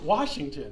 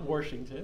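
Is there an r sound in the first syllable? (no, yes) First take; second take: no; yes. First: The first syllable has no r sound. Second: The first syllable has an r sound. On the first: The speaker calls it right. "there's no R in that word" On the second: The speaker calls it wrong. "It's not Washington"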